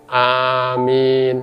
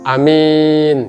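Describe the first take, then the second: First: Both the first and second vowels are long. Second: The first vowel is short, the second long. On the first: It means O God, grant it. "yang pertama panjang, yang kedua panjang juga" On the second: It means the honest one. "A-nya panjang jadi pendek, min-nya pendek jadi panjang"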